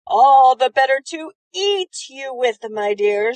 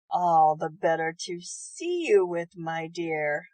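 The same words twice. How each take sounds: First: Bare the teeth and snarl it out. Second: Grinning wolf. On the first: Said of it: "snarled the wolf". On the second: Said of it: "grinned the wolf". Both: Acted.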